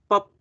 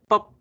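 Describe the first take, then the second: Both takes have the same delivery.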